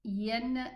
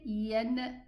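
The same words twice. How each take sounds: Both takes have the same delivery.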